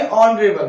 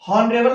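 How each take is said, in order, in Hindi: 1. शब्द की शुरुआत स्वर से होती है, h साइलेंट है। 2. शब्द की शुरुआत में h की आवाज़ सुनाई देती है। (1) "ये हमारी साइलेंट है" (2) "हॉनरेबल नहीं"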